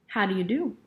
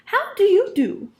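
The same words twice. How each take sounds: First: It is said in a normal voice. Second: It is said in a high, thin voice.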